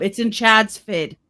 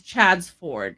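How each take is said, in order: First: "Chad's Ford" reduced to "Chad's Fid"; mispronounced place name. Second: "Chad's Ford" slowly, as two full words; possessive, as written. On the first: Retold or imitated. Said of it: "I was like". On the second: Shown as a demonstration. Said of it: "like the possessive".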